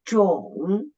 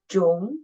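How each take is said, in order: First: The pitch dips low, then rises again. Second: The pitch rises from middle to high. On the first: "the third tone, down at first, and then raise up" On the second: "The second tone, raise up"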